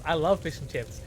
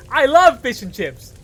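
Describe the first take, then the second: First: Said in the usual way. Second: Loud, high burst of enthusiasm; playful shout. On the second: Pretend. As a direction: yell your love for it, much higher. Same words repeated as a yell.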